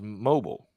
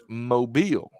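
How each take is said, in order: First: It uses the general English pronunciation of the word. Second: It uses the local pronunciation of the city's name. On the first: This is how the ordinary word is said. "in the English language, the word M O B I L E is mobile" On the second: This is how locals say the city's name. "but in this city, it's mobile"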